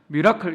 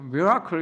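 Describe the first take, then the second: First: The R is said flat, without curling. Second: The R is curled like in English. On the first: It follows the formal broadcast convention. "R자 발음을 절대로 회전시키지 않는데요. 굴절시키지 않는데요" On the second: It is the everyday way learned in English class. "일상적으로 영어를 배울 때는요"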